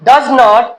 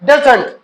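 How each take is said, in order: First: Two full words are said separately. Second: The two words merge into one word.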